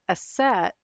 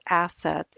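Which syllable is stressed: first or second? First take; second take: second; first. First: The stress is on the second syllable. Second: The stress is on the first syllable. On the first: The speaker calls it wrong. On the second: The speaker calls it right.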